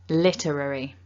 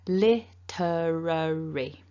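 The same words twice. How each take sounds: First: The word is said quickly. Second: The word is said slowly. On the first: "And nice and quickly" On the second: "I'll say it slowly first"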